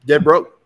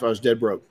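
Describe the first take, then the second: First: Louder, hammering it home; dead broke, driven home louder; emphatic repeat. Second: Said in the usual way. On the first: Real, not acted. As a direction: punch both words.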